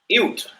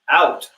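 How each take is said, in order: First: The word is said in a Canadian accent. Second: The word is said in a plain accent.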